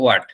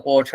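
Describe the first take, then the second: First: "what" with a w glide, "waat"; American "what". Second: "what" as rounded "ot", no w; British "what". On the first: Teacher showing the American form, "what" with a w. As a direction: open "what" with a clear w. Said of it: "American ইংলিশে বলা হয়". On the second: Teacher telling students to follow British, "what" as "ot". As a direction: drop the w of "what", say "ot". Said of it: "আমরা British English follow করি". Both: Shown as a demonstration.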